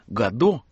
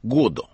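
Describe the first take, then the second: First: The stress is on the second syllable. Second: The stress is on the first syllable. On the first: This is the customary way of saying the name. "как мы привыкли произносить" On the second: This is how the author himself said the name. "как произносил сам Беккет с ударением на первом слоге"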